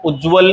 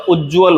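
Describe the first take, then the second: First: उज्ज्वल said as "u-jval"; only one j in उज्ज्वल; single ज. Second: उज्ज्वल said as "uj-jval"; doubled ज. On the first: Teacher repeating the mistake, उज्ज्वल with a single j. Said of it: "उज्ज्वल नहीं होता". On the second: Teacher repeating the correction, उज्ज्वल with double j. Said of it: "उज्ज्वल होता". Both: Shown as a demonstration.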